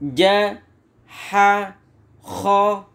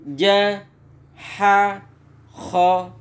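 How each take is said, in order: First: Each syllable is said separately with pauses. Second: Each syllable is said separately with pauses.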